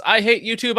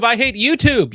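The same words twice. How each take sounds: First: Louder, higher mock rant. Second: Even louder, higher shout; louder mock rant. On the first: Reading a donor's message as an angry rant. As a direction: belt it out like a rant. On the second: Repeating the donor's complaint as a bigger shout. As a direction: push the rant harder. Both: Chat line read twice.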